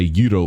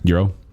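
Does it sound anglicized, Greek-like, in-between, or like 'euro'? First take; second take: Greek-like; in-between. First: It is said with an exaggerated Greek-style pronunciation. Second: It is said midway between the other pronunciations. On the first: The speaker calls it wrong. "I'm really trying to sound like a Greek person" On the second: The speaker calls it right. "You got to right in the middle there"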